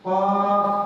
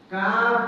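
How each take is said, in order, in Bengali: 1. প্রথম ধ্বনিটি মোটা, গলার গভীর থেকে আসে। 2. প্রথম ধ্বনিটি পাতলা, আরও সামনের দিক থেকে আসে। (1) "কফ হরফের মধ্যে মোটা সিফত বিদ্যমান আছে" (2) "পাতলা সিফত চলে আসবে"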